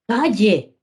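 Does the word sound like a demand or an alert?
alert. It is said as a surprised alert. The child is warning that the door is open. "quiere avisar de que la puerta se quedó abierta... Su entonación también ayuda"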